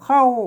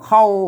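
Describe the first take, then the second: First: The syllable is said with a falling tone. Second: The syllable is said with a low tone. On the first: "เสียงโทพิเศษ" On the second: "แล้วก็เสียงเอก"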